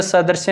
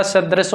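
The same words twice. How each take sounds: First: सदृश said "sa-dar-se"; wrong form shown. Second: सदृश said "sa-dras"; correct form shown. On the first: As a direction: say सदृश with the vowel before the r. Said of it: "सदृश नहीं होता". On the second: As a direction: keep d and r together in सदृश. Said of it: "सदृश होता है". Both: Shown as a demonstration.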